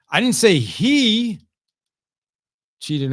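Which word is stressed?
he. The word "he" carries the main stress. A different person cheated. "That was someone else that cheated in golf"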